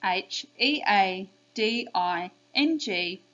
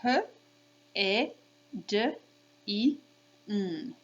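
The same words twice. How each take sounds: First: H E A D I N G spelled slowly by letter name. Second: H, E, D, I, N as phonemes, not letter names; sounded out. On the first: Teacher for kids to repeat, slow letter names. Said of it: "I'm gonna do the letter names now". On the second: Teacher saying sounds to kids, sounded out. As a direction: say each sound of H, E, D, I, N alone. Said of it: "So if I say the sounds". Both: Shown as a demonstration.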